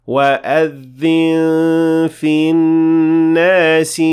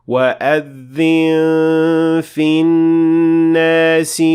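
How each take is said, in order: Both takes have the same delivery.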